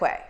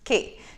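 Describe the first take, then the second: First: The word is pronounced 'kway', as spelled. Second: The word is pronounced 'kee', like key. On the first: The speaker calls it wrong. "it looks like Quay" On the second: The speaker calls it right. "It's Key. That's how it's pronounced"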